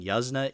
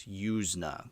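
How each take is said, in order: First: "Yuzna" said as YUZ-nuh, short uh vowel; wrong pronunciation. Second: "Yuzna" said as YOOZ-nuh, long oo; correct pronunciation. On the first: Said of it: "that's how you say his name". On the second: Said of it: "That's how you pronounce it". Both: Shown as a demonstration.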